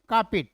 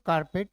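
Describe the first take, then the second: First: The R sound after the vowel is silent. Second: The R sound after the vowel is pronounced. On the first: The speaker calls it right. "It's कार्पेट" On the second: The speaker calls it wrong. "It's not कारपेट"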